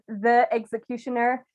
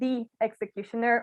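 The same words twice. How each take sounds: First: 'The' is said with a short 'uh' vowel. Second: 'The' is said with a long 'ee' vowel. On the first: The speaker calls it wrong. "puts two sounds that are very similar close to each other, and it becomes really hard to pronounce" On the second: The speaker calls it right. "that's why you say the executioner"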